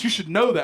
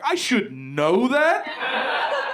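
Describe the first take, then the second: First: Said in the usual way. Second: Slow, high, rising disbelief; incredulous echo. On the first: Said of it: "He's like". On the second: Retold or imitated. Comedian throws his friend's words back, incredulous. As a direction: draw it out into an outraged question. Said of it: "I'm like".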